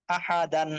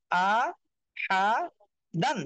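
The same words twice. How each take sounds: First: আহা দান run together as one word; joined-up reading. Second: আ, হা, দান one by one with clear gaps; teacher sounding out আ ... হা ... দান separately; broken-up syllables. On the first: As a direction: read আহা দান straight through without gaps. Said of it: "reading করবেন". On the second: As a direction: pause after each of আ, হা and দান. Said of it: "একটা একটা করে পড়বেন". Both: Shown as a demonstration.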